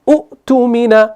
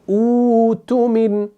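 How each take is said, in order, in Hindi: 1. पहला स्वर छोटा और झटके वाला है। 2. पहला स्वर लंबा और खिंचा हुआ है। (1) "झटका देकर नहीं पढ़ना है ... शुरू ऐसे नहीं करेंगे" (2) "खींच कर"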